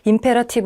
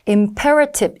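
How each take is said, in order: First: It is said flat, with no clear stress. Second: One syllable is given strong, clear stress. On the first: The speaker calls it wrong. "그냥 영혼 없이 imperative 이렇게 읽지 말고" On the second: The speaker calls it right. "여기를 좀 강세를 줘서 읽으시면 됩니다"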